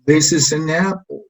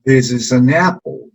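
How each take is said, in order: First: This is an apple, rising on apple then falling; falling intonation. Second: Slow This is an apple, up on apple then down; rise-fall tune. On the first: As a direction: rise then drop on apple. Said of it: "una entonación desde arriba hacia abajo". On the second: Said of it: "una pequeña subida y después una bajada". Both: Shown as a demonstration.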